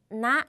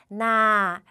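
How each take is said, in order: First: The vowel is cut short. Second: The vowel is held long. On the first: It is a sentence-ending particle for pleading or requests. "이렇게 짧게 나 하면은" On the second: It means rice field. "나 길게 한다면"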